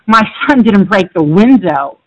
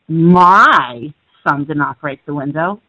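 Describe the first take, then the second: First: The word "window" carries the stress. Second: The word "my" carries the stress. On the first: Something other than the window was broken. "he broke the door" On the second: Someone else's child broke it. "you're implying somebody else's did"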